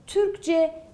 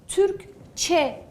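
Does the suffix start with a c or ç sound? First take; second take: c; ç. First: The suffix starts with a voiced c sound. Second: The suffix starts with a voiceless ç sound. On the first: The speaker calls it wrong. "Türkçe demiyorum" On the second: The speaker calls it right. "Türkçe diyorum"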